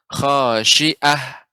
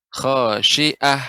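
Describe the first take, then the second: No difference in how they are said.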